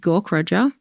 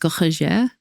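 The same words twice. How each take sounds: First: The name is said with an Australian accent. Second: The name is said the German-French way.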